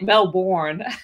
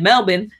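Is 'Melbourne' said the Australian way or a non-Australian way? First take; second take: non-Australian; Australian. First: It is said with a non-Australian pronunciation. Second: It is said with an Australian pronunciation. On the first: "you're like Melbourne" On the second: "pronounce it like an Australian"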